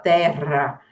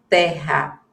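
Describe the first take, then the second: First: The R is said the southern Brazilian way. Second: The R is said the speaker's usual non-southern way. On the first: "lá no Sul, as pessoas já falam terra" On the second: "a gente fala o re normal"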